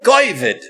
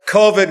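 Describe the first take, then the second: First: The word is said in Ashkenazi Jewish pronunciation. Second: The word is said in standard pronunciation. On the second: "instead of saying COVID"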